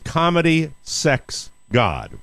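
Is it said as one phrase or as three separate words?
three words. Each word is set apart by short pauses. The book covers three topics. The speaker calls it right. "It is"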